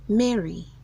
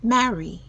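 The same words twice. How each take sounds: First: The first syllable sounds like 'me'. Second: The first syllable sounds like 'ma'. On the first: The speaker calls it wrong. "instead of saying me" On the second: The speaker calls it right. "you should say ma"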